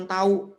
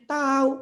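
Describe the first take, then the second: First: Said in the usual way. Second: "Tahu" said high and loud, sarcastic; meaning-laden "Tahu.". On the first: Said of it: "kita jawabnya cuma". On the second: Shown as a demonstration. Teacher showing pupils how "Tahu" can mean no. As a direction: say "Tahu" so it means you don't know. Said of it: "orang bisa nangkep dalam intonasinya".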